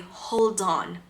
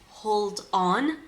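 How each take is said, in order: First: The two words are linked into one flowing sound. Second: The two words are said separately and carefully. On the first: The speaker calls it right. "He instead is going to say" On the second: The speaker calls it wrong. "usually not going to listen to a native speaker saying"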